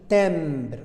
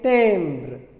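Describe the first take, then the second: First: An M consonant is sounded after the vowel. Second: A nasal vowel leads straight into the B. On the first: The speaker calls it wrong. "Ce n'est pas le M, je n'ai pas dit timbre, non" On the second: The speaker calls it right. "je ferme les lèvres à la prononciation de la consonne B"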